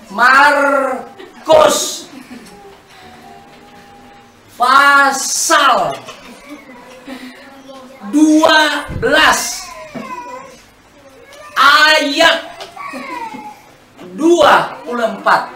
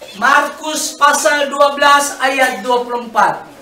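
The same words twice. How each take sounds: First: It is spoken much more slowly. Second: It is spoken at a normal pace.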